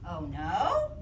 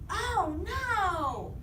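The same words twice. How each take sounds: First: The voice rises at the end, questioning. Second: The voice is loud, emphatic and excited. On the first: The speaker is asking something. "That's a question" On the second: The speaker is strongly exclaiming. "exclamate. Your voice needs to be super excited"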